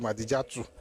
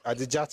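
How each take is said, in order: First: The name ends with an added vowel. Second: The name ends in a consonant sound. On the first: This is the Yoruba way of saying the name. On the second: This is the original form of the name.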